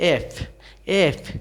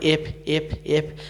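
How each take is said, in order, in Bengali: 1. f-এ নিচের ঠোঁট উপরের দাঁতের সঙ্গে লাগে। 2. f-এর ঠোঁট ও দাঁতের স্পষ্ট ঘর্ষণ নেই। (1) "নিচে যে ঠোঁটটা এটা উপরে দাঁতের" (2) "এটা ভুল উচ্চারণ"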